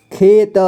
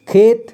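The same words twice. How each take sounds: First: खेत split as खे, त; syllable by syllable. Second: Said in the usual way. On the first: Shown as a demonstration. Teacher showing learners खेत, sounded out in parts. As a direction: sound out खेत with a vowel after त. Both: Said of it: "इसे पढ़ेंगे".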